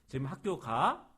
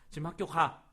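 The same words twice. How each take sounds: First: The pitch rises at the end. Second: It is said sharply and forcefully. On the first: It asks whether someone is going to school. "하면은 의문문이 돼요" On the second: It orders someone to go to school. "요거는 명령이 돼요"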